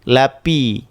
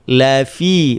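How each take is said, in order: First: The consonant is made with both lips. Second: The f is made with teeth on lip. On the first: The speaker calls it wrong. "bukan lapi" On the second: The speaker calls it right. "bukan lapi"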